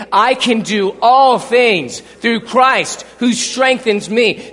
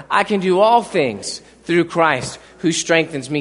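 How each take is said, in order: First: Slow, emphatic, every word of "I can do all things through Christ who strengthens me" leaned on; slow, loud, emphatic declaration; said like you mean it. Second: Said in the usual way. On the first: Shown as a demonstration. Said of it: "Say it like you mean it". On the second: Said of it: "One more time".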